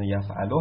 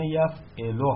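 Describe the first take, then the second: First: یفعلو said yaf-A-lu, open a on the middle ain; یفعلو with a clear short a after the ain: yaf'alu; teacher pronouncing یفعلو as yaf'alu, middle vowel a; yaf'alu with fatha. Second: یفعلو said yaf-I-lu, short i on the middle ain; یفعلو with a short i after the ain: yaf'ilu; teacher pronouncing یفعلو as yaf'ilu, middle vowel i; yaf'ilu with kasra. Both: Shown as a demonstration. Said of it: "این دو تا حالت برای مضارعش داریم".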